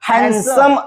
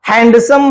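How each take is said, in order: First: The d sound is left out. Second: The d sound is pronounced clearly. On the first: The speaker calls it right. "हँडसम असा उच्चार आपण त्याचा करत असतो. ... डी अक्षर silent आहे" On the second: The speaker calls it wrong. "हँडसम म्हणत नाही. हँड म्हणजेच हात आणि सम"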